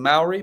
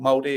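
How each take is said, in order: First: The name has an English-style pronunciation. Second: The name has a Māori-style pronunciation. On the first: This is how outsiders usually say it. "we would call them Maori" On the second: This is how people in New Zealand say it. "they're called Māori if you go to New Zealand"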